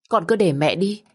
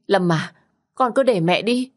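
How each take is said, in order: First: Tearful plea. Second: Rising desperate plea. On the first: Mother begs to go instead. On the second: Mother begs again, higher. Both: Acted.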